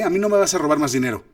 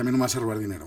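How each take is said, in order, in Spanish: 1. La línea se dice con mucha convicción y fuerza. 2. La línea se dice con menos fuerza, de forma más vacilante. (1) "si yo digo cierto cantadito" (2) "ya no la puede decir con la misma contundencia"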